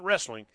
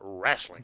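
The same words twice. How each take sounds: First: The word is said with standard pronunciation. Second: The word is said like 'rasslin', dropping sounds. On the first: "It's not wrestling" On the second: "You spell it RASTLING ... or actually RASSLIN"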